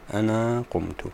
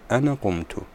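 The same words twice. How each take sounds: First: The first word ends in a long vowel. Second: The first word ends in a short vowel. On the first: "بإثبات الألف" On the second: "البعض يقول أنا قمت"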